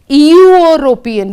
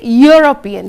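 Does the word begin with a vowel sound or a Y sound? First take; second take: vowel sound; Y sound. First: The word begins with a plain vowel sound. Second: The word begins with a consonant Y sound. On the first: The speaker calls it wrong. "we don't say European" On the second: The speaker calls it right. "we say European. So again, it is a consonant sound U"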